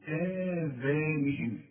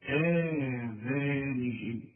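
First: آذانهم drawn out slowly, falling at the end; tajweed demo of آذانهم; natural madd. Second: آذانهم said very slowly with a natural two-count madd; slow tajweed demo of آذانهم. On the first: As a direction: hold the madd in آذانهم steadily. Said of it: "المد الطبيعي وتقول". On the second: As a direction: stretch آذانهم evenly. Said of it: "مد طبيعي". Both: Shown as a demonstration.

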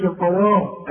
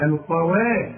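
First: "القوا" ending in a dark "wo"; wrong heavy waw. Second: "القوا" ending in a thin, fronted "wee"-leaning a; correct light waw. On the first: Teacher showing what not to say, wrong heavy waw. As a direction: thicken the وا of "القوا". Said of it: "هنا ما تقولش". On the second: Teacher modelling the right waw, correct light waw. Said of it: "وا، وإذ". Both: Shown as a demonstration.

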